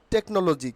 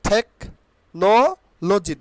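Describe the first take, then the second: First: "টেকনোলজি" said tek-no-lo-ji, plain t; the wrong "টেকনোলজি", no breath after t; common mispronunciation. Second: "টেকনোলজি" broken into THEK... NO... loji; puffed t in "টেকনোলজি", pauses after thek and no; corrected pronunciation. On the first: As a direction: say "টেকনোলজি" joined up, unpuffed t. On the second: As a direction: say "টেকনোলজি" very slowly, part by part. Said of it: "not টেকনোলজি". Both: Shown as a demonstration.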